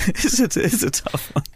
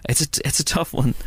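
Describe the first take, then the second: First: Higher, slow, hammed-up stage Irish; mock Irish lilt. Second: Said in the usual way. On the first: Podcaster mulling bad film Irish accents, slow mock Irish lilt. Repeats phrase in put-on voice.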